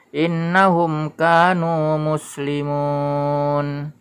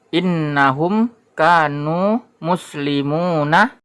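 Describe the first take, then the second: First: The last word ends on the consonant n. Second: The last word ends with a final vowel. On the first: The speaker calls it right. "huruf nun ini harokatnya tidak dibaca, jadi seperti disukunkan" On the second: The speaker calls it wrong. "ini adalah innahum kanu muslimuna"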